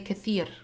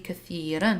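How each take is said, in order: First: The word ends on a bare r sound. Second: The word ends with an -an sound. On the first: The speaker calls it wrong. "I cannot say" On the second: The speaker calls it right. "This has to be"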